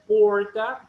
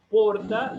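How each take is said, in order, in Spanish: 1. La R suena como una R inglesa. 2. La R no suena como la R inglesa. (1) "tienen una R que es como la R de inglés" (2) "Ellos no dicen porta"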